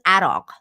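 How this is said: It is said with a Farsi-style pronunciation. The speaker calls it right. "We call it Iraq. ... the proper pronunciation"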